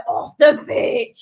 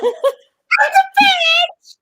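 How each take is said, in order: First: Said in the usual way. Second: Very high squealed shout; comic high-pitched yell. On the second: Shown as a demonstration. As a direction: shriek it up at the top of your voice. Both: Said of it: "practice your voice pitch".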